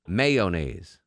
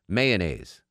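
Both takes have the same delivery.

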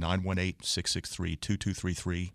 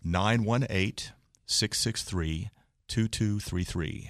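First: The number is said at normal speed. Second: The number is said more slowly.

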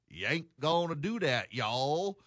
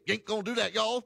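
First: The phrase is said slowly and drawn out. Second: The phrase is said quickly and clipped. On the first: "which is a long, drawn-out, inefficient conversation" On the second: "they don't say"

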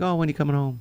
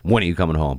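First: It sounds sweet and affectionate. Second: It sounds stern and demanding.

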